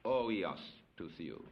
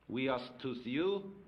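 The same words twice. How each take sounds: First: "oios to theou" said slowly, lower, falling; "oios to theou" read slowly in Greek, dropping at the end. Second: "Huios to theou" read slowly in Greek, each word spaced; "Huios to theou" spoken slowly, Greek for "a son of God". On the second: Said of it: "is a son of God". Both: Shown as a demonstration.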